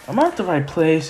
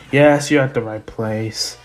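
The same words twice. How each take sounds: First: "am I at the right place" rising at the end; unsure question. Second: "you're at the right place" stated low, without a question lift; firm answer. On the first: Izuku asking "am I at the right place", unsure. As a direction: ask "am I at the right place" with an upward lift. Izuku asks Gran Torino. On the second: Gran Torino confirming "you're at the right place", firm. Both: Retold or imitated.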